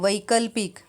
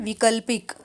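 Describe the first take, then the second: First: The first syllable has an 'ai' vowel. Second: The first syllable has a short 'i' vowel. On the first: The speaker calls it right. "व को ऐ की मात्रा आएंगी" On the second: The speaker calls it wrong. "अशुद्ध रूप है विकल्पिक"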